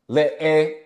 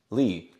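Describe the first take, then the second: First: The vowel is split into two sounds. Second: The vowel is one smooth sound. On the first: The speaker calls it wrong. "Notice I don't say le e" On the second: The speaker calls it right. "it's one sound"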